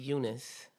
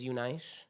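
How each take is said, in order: First: Eunice said as "YOU-niss"; Eunice ending in a soft "-niss", no long i; correct name pronunciation. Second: Eunice said as "you-NICE"; Eunice with a long i in the last syllable; spelling pronunciation. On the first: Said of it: "but it's pronounced Eunice". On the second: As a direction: say Eunice the way it looks, ending like "nice". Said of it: "That's how it's spelled". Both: Shown as a demonstration.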